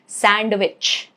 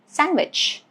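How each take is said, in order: First: The D sound is pronounced in the word. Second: The D sound is left out of the word. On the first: The speaker calls it wrong. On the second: The speaker calls it right.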